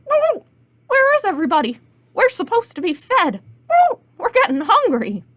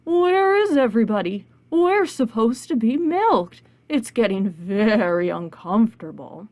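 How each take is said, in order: First: High, loud squawking hens; hungry chickens with shrieked whoops. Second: Cow voice. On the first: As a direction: cluck and squawk the complaint. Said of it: "all the chickens said". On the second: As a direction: stretch the words like lowing cattle. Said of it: "all the cows said". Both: Acted.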